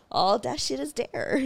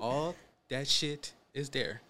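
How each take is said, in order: First: Drawn-out sign-off. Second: Slow, soft mocking drawl; mocking her sign-off. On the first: Retold or imitated. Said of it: "the way I said". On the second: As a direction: stretch it out teasingly. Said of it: "he always makes fun of".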